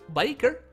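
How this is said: It is said in a put-on Canadian accent.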